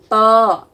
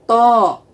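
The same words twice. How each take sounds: First: The vowel is said without rounding the lips. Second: The vowel is said with the lips pushed forward. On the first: The speaker calls it right. "tidak menggunakan bibir... tapi menggunakan tengah lidah" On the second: The speaker calls it wrong. "bukannya to"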